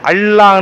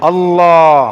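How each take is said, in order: First: The L sounds thin and light, tongue at teeth. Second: The L sounds heavy and full, tongue raised. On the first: The speaker calls it wrong. "பல்லில நாக்க வைப்பதோ அந்த எழுத்துக்குரிய மஹ்ரஜ் கிடையாது" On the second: The speaker calls it right. "கனமாக, கண்ணியமாக உயர்த்தி உச்சரிக்க வேண்டும்"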